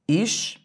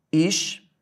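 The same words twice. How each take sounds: First: His-to-ri-a in four separate beats, ri and a apart; split into four syllables. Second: His-to-ria in three beats, ending on one gliding syllable ria; split into three syllables. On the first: Teacher showing the hiatus split: His-to-ri-a. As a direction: spell out His-to-ri-a with a break before the final a. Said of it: "Olha como eu posso separar também". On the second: Teacher splitting the word on the board: His-to-ria. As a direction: spell out His-to-ria with the last vowels joined. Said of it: "separar a palavra história dessa maneira". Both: Shown as a demonstration.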